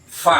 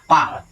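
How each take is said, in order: First: It starts with an f sound, air flowing. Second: It starts with a p sound, no airflow. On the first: The speaker calls it right. "Ini terbang dulu kapas, baru saya bunyi" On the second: The speaker calls it wrong. "Orang kebanyakan bilang fa itu pa"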